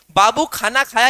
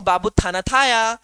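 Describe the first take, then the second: First: Said in the usual way. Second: Put-on थाना थाया with a childish lisp, t for kh; lightly mocking lisp of a sweetheart; playful babytalk lisp; lisping baby talk. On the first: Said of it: "ये भी एक भाषा है". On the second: Shown as a demonstration. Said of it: "मैं नहीं तुतला रहा हूं".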